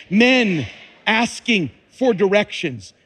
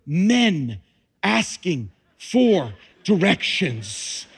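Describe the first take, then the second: First: Louder, punched repeat of the gag; louder punchline. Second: Slow, dry punchline; deadpan joke. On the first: Preacher repeating the joke for the women, louder and grinning. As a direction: hit the joke again for the women. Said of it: "One more time". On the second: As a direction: let the joke land slowly. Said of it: "Do you see the miracle". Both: Acted.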